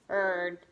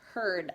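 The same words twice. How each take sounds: First: It is said in a robot voice. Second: It is said in a normal voice.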